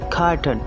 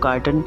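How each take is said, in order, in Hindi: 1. स्वर के बाद r की आवाज़ बोली जाती है। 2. स्वर के बाद r की आवाज़ छोड़ दी जाती है। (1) "अगर इसको अमेरिकन एक्सेंट में इसकी इंग्लिश देखेंगे तो" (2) "अगर इसे ब्रिटिश एक्सेंट में देखेंगे तो"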